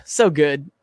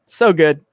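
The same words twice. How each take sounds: First: Said in the usual way. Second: Breathy repeat in a whisper. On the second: Acted. Savoring Beavis, whispering the compliment back. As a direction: whisper it to yourself.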